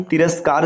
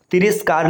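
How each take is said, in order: First: तिरस्कार said as "tiraskaar"; correct middle vowel. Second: तिरस्कार said as "tiriskaar"; wrong middle vowel. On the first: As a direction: put an "a" after r in तिरस्कार. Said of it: "सही होता है". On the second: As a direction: put an "i" after r in तिरस्कार. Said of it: "नहीं". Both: Shown as a demonstration.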